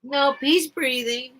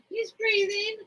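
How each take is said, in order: First: Said in the usual way. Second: Relieved pet talk. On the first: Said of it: "might be dead". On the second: Real, not acted. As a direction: coo at the bird, pitched way up. Relieved, to the bird.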